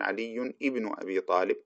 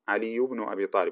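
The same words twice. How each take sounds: First: The hamza of ibn is clearly pronounced. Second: The hamza of ibn is dropped and linked. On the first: The speaker calls it wrong. "ولا نقول" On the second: The speaker calls it right. "ونقول مثلا"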